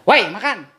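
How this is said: It is said in a harsh, confrontational tone. It sounds like picking a fight. "yang satu ngajak berantem"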